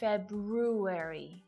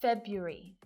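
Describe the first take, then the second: First: The first R sound is pronounced. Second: The first R sound is left out. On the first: The speaker calls it wrong. "not February" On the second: The speaker calls it right. "the purest silent R"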